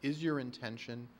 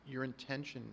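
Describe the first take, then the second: First: "is your intention" put as an open question; asked as a question. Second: "your intention" stated, softly left hanging; begun as a statement. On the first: Commissioner asking developer about the lots, as a question. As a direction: recast "is your intention" as a query. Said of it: "I should ask it as a question". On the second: Commissioner starting a point to the developer, as a statement. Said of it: "I should ask it as a question, not as a, s-, a statement". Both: Real, not acted.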